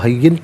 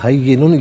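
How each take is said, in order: First: The word ends with a bare consonant. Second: The word ends with a vowel plus n. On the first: The reader stops at this word. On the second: The reading continues without stopping.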